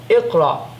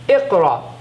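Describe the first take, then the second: No difference in how they are said.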